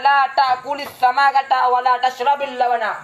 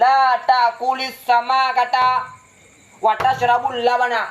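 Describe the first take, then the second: First: The verb tashrab ends in an i vowel. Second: The verb tashrab ends in a u vowel. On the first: Neither eating fish nor drinking milk is allowed. "maksudnya yang kedua" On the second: Eating the fish is forbidden, while drinking milk is allowed. "maka makna pertama"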